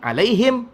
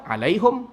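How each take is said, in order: First: The word ends in a closed 'him' sound. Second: The word ends in a closed 'hum' sound. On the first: Another group of Arabs reads it this way. "Satu orang baca lagi alaihim" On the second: One group of Arabs reads it this way. "Satu orang baca alaihum"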